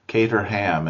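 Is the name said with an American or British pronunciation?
American. It is said with an American pronunciation. "is how Americans say it"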